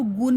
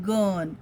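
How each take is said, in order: First: "गुन" with an oo vowel; mispronounced gun. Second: "गन" with a short uh vowel; correct gun pronunciation. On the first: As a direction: say "गुन" as goon, the U as oo. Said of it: "हम इसको गुन नहीं बोलते". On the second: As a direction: say "गन" with U as अ, drawn out. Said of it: "Because sound of U is अ". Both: Shown as a demonstration.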